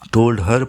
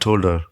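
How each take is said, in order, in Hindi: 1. her में h पूरी तरह बोला जाता है। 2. h छोड़ दिया जाता है और शब्द आपस में जुड़ जाते हैं। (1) "पूरा कहने के बजाय" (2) "कहेंगे"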